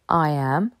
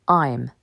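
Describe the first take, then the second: First: Two separate full words are said. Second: The words are merged into one short syllable. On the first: "Plutôt que de dire I am" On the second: "on dira I'm"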